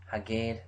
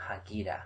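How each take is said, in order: First: Standard imperative Haged, ending in a short zere; Haged with stress on the last syllable, short. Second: Emphatic Hagida with the ending a. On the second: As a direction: Hagida with a clear i and a final a, falling. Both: Shown as a demonstration.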